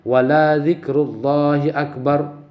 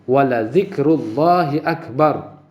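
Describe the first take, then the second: The two takes are said the same way.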